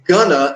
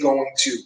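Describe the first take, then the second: First: The phrase is reduced to two short syllables. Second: The phrase is said fully as two words. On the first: This is the informal form most native speakers use. "they're going to say gonna" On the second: This is the full form native speakers rarely use. "they're not going to say going to"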